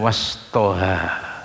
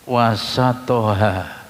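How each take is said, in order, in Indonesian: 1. Setelah bunyi s tidak ada vokal. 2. Setelah bunyi s ada vokal a. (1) "Itu beda dengan wastoha" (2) "sinnya diharokati fathah"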